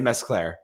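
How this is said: The name has an American pronunciation. "in America we say Mesclair"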